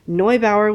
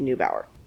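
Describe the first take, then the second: First: The name is pronounced the German way. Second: The name is pronounced the American way. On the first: "would be the German pronunciation" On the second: "if you Americanize it, it might be"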